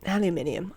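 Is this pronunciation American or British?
British. It is said the British way, with five syllables. "Gonna revert to my British pronunciations"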